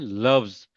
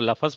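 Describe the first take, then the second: First: The last two consonants form a cluster. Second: A vowel separates the last two consonants. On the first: The speaker calls it right. "Exact word है लव्स" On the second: The speaker calls it wrong. "अगर आप जबर दे के पढ़ेंगे तो लफज पढ़ेंगे"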